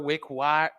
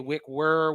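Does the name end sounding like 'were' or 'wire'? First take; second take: wire; were. First: The second syllable sounds like 'wire'. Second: The second syllable sounds like 'were'. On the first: The speaker calls it right. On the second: The speaker calls it wrong. "Don't say wick were"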